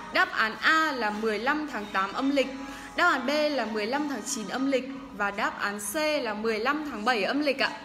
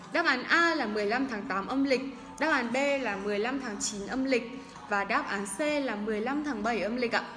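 Both takes have the same delivery.

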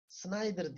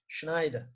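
First: The name begins with a plain 's' sound. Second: The name begins with an 'sh' sound. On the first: The speaker calls it wrong. "Schneider Snyder diye söyleniyordu ama o Hollanda dilinde" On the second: The speaker calls it right. "orijinalinde Almanca'dan orijinalinde şudur"

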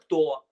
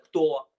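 First: It is said with a flat statement tune. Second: It is said with a flat statement tune.

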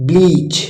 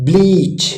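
The two takes are said the same way.

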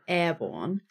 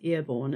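First: The first vowel sounds like 'air'. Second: The first vowel sounds like 'ear'. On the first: "instead of airborne" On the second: "we say, as New Zealanders, airborne"

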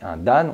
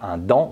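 First: The word is said with Japanese sounds. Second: The word is said with French sounds. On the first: The speaker calls it right. "on dit" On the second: The speaker calls it wrong. "on ne dit pas"

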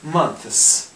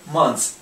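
First: The th sound is clearly pronounced before the s. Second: The th sound is dropped before the s. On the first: "Получается month, а потом еще и с добавить обычно" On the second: "чаще всего они могут просто сказать months, вот как мы"

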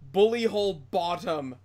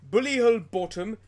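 First: It is said in the speaker's usual accent. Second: It is said in a put-on Welsh accent.

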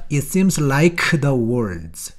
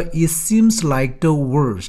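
First: The k in 'like' is clearly released. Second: The k in 'like' is held back, unreleased. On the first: The speaker calls it wrong. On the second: The speaker calls it right. "크는 발음이 되지 않습니다. 트처럼 또는 드처럼"

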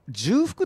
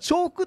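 First: The word begins with a 'ju' sound. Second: The word begins with a 'cho' sound. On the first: "重複っていう方がいらっしゃるんですね" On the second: "本当は重複っていうのが正しいんですけど"

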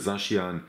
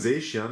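First: The first syllable has an 'ah' vowel. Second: The first syllable has an 'ay' vowel. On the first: It matches how the related name is said. The speaker calls it right. "Deswegen wäre ich für Saschian V" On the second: Some people say it this way. The speaker calls it wrong. "Manche sagen Seischian"

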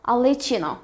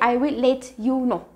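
First: The words 'I will' are contracted to 'I'll'. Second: The words 'I will' are said in full. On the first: The speaker calls it right. "You say I'll let you know" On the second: The speaker calls it wrong. "You don't say I will let you know"

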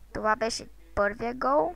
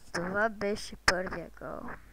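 First: It is spoken at a normal pace. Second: It is spoken a little more slowly.

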